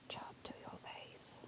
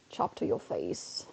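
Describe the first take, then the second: First: Breathy slow whisper; creepy whispered threat. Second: Low, slow and soft, like a menacing threat; growled low threat; deep slow growl. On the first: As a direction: hush it right into their ear. Same line repeated as whisper. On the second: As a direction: drop the pitch and drag it out. Playful Pokemon move commentary. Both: Shown as a demonstration.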